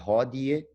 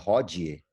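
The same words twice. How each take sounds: First: The d is a plain stop, not affricated. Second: The d is affricated, like a dj sound. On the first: The speaker calls it right. "o D não tem é, africação, né, ou palatalização" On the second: The speaker calls it wrong. "não é hodie"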